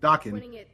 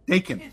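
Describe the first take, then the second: First: It sounds like the 80s hair band's name. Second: It does not sound like the band's name. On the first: This is the intended pronunciation. The speaker calls it right. "it's pronounced like the old 80s hair band" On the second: This is the common mistaken pronunciation. The speaker calls it wrong. "most people tend to pronounce it"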